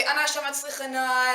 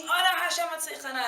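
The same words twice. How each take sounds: First: Said in the usual way. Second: High, fervent shouted plea; pitched-up retold crowd scream; everyone screaming. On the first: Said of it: "And they say". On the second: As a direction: belt it out like the whole shul at once. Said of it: "and everyone's screaming".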